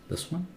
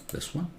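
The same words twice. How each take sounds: No difference in how they are said.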